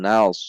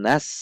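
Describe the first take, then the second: First: The s sound is heavy, tongue root raised. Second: The s sound is plain and light. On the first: The speaker calls it right. "diangkat pangkal lidahnya sehingga berbunyi nals" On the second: The speaker calls it wrong. "Bukan nas"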